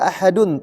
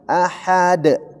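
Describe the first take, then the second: First: The word ends with a full -dun ending. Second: The word stops on a bouncing bare d. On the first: The speaker calls it wrong. "tidak dibaca ahadun" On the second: The speaker calls it right. "tapi ahad. Menjadi huruf qalqalah karena waqaf"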